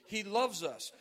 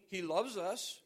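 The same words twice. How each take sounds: First: Loves pressed out louder; stress on loves. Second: Said in the usual way. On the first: Shown as a demonstration. Preacher repeating for the tape, stress on loves. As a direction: lean on loves, clearly for the recording. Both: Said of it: "for the tape".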